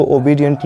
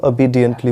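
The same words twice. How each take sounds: First: "obediently" opened with a full o; wrong OBEDIENTLY. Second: "obediently" opened with a short schwa; correct OBEDIENTLY. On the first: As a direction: say "obediently" starting "oh-bee". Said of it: "इसको obediently नहीं". ("obediently" की शुरुआत पूरे ओ से) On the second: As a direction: say "obediently" starting "uh-bee". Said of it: "इसको obediently बोलते हैं". ("obediently" की शुरुआत आधे अ से) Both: Shown as a demonstration.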